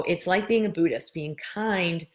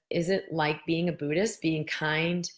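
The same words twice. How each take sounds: First: "It's like being a Buddhist, being kind" with falling statement tune; falling tune, stress on "being"; restated as statement. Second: Rising question tune on "Is it like being a Buddhist"; reading a question. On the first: Shown as a demonstration. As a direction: answer it back as a firm statement. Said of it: "It, oh". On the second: Retold or imitated. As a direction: read it as Elaine's question, rising. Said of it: "Elaine says".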